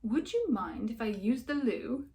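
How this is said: It is said in a put-on accent.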